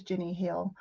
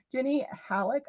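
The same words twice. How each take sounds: First: "Jenny Hale" said with one-syllable HALE; corrected name. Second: "Halleck" said HAL-uck, two syllables; mispronounced name. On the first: Streamer correcting mother-in-law's name to one-syllable "Hale". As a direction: say "Hale" as one clean syllable, rhymes with mail. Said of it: "I knew that was Jenny Hale". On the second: Streamer misreading mother-in-law's name as "Halleck", HAL-lek. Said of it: "is that how you say it?". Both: Shown as a demonstration.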